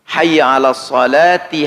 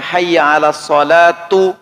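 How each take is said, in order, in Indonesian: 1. Kata terakhir berakhir dengan vokal 'i'. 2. Kata terakhir berakhir dengan vokal 'u'. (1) "harus ada ti, dibaca ti, dibaca kasroh" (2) "Tidak boleh dibaca hayya 'alas salatu"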